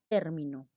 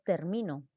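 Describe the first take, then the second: First: The stress is on the first syllable. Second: The stress is on the middle syllable. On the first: A word or expression. "un término es una palabra" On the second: I finish, in the present tense. "Estamos hablando de un verbo en presente"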